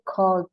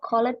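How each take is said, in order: First: The ending is just a d sound. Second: The -ed ending is said as an extra syllable. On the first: The speaker calls it right. "Jadi bacanya cold" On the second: The speaker calls it wrong. "Jadi yang baca colored salah"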